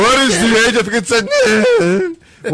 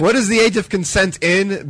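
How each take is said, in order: First: High, breaking mock crack; voice cracking up an octave. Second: Said in the usual way. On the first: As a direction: let the voice jump up and crack. Repeating the question, mocking the crack.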